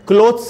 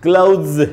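First: The word ends with an s sound. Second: The word ends with a z sound. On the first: The speaker calls it wrong. "क्लोथ्स नहीं बोलना है" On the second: The speaker calls it right. "इसे ज का sound आएगा"

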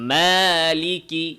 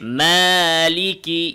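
First: The long a is said with the mouth wide open. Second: The long a is said with the mouth wide open.

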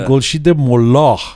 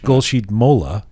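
First: The name is said with a Persian-style pronunciation. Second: The name is said with an English pronunciation. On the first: The speaker calls it wrong. "I feel like I have to say" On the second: The speaker calls it right. "if I say it in English"

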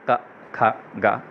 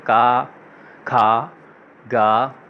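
First: Each syllable is clipped short. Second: Each syllable is stretched out longer. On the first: It gives only the bare sounds. "मतलब थोड़ा छोटा छोटा बोले के" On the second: It names the consonants as letters. "थोड़ा ज़्यादा हम लोग स्ट्रेच करेंगे"

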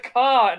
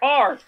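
First: The final R sound is dropped. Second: The final R sound is pronounced.

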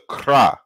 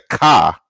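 First: The word is said with an r after k. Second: The word is said with a plain k sound. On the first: This is the original form of the word. The speaker calls it right. "it's the kra" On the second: This is the common way people say it. The speaker calls it wrong. "A lot of us will say the ka, but it's not the ka"

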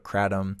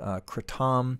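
First: The word has an American, Western pronunciation. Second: The word has its Thai, Southeast Asian pronunciation. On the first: This is the name used by Westerners. "People in the U.S., Westerners, call it" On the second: This is the name used in Southeast Asia. "which is what it's called in Thailand and Southeast Asia"

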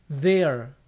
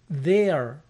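No difference in how they are said.

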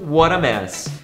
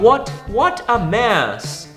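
First: The words are run together as one. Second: The words are said separately, not linked. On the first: "geralmente eles falam tudo junto" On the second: "ao invés de falar what a mess"

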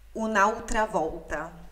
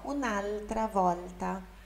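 First: The L in altra sounds like a U. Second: The L in altra is a clear L. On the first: The speaker calls it wrong. "se lêssemos em português isso daqui em italiano, seria" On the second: The speaker calls it right. "no italiano, o L antes de consoante ou no finalzinho de palavra é L"

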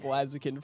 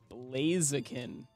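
First: The first part does not sound like 'blaze'. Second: The first part sounds like 'blaze'. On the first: The speaker calls it wrong. "partner said Blaziken for a very long time" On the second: The speaker calls it right. "because it's the Blaze chicken"

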